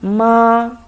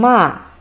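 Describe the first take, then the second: First: It is said with the first tone. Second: It is said with the fourth tone. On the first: It means mom. "for the first time" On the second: It means to curse. "the fourth tongue"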